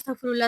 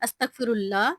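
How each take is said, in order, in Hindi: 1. शब्द बहुत तेज़ बोला गया है। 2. शब्द धीरे और सावधानी से बोला गया है। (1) "बहुत स्पीड में पढ़ रहे होते हैं ... आपने ऐसे नहीं पढ़ना" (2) "आपने आराम-आराम से पढ़ना है"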